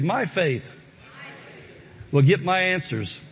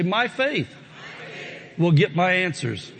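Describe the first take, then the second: First: It is said in a calm, ordinary voice. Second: It is said loudly and with strong conviction. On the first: "Say this with me" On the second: "Say it again like you mean it"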